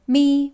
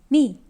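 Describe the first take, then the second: First: The syllable carries the first Mandarin tone. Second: The syllable carries the fourth Mandarin tone.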